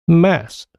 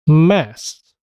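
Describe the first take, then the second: First: Only a single s sound ends the word. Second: The k drops and two short s sounds follow. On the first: "첫 자음만 발음되고 나머지 두 개 자음은 소리가 없어지는 겁니다" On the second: "그 사운드는 없어지고 스 사운드가 아주 짧게 연속해서 발음됩니다"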